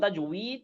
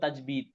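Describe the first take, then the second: First: The middle consonant is a w sound. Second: The middle consonant is a b sound. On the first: "ওয়াও দিয়ে" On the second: "বাজের মিহির মতো"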